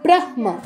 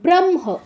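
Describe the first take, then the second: First: The h sound comes before the m. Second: The m sound comes before the h. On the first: The speaker calls it wrong. "হওয়ার কথা কি ছিল এখানে?" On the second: The speaker calls it right. "এখানে মটা আগে উচ্চারণ করতে হবে"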